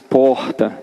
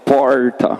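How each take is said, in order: First: It is said in the speaker's local accent. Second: It is said in an inland São Paulo accent. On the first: "aqui se diz porta" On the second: "interior de São Paulo"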